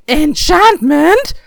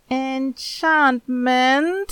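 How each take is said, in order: First: High, loud, drawn-out yell; a boy's excited yell, stretched long; yelling back. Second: Very slow, higher, hesitant question; a boy's worried, drawn-out reply; uneasy. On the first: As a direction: shout it back over your shoulder while chasing a cat. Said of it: "Sandal yelled back". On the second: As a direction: say it nervously, unsure of yourself. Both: A narrator's reading.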